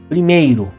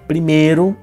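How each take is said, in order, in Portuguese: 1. A vogal é o ditongo completo 'ei'. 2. A vogal é um som simples de 'e'.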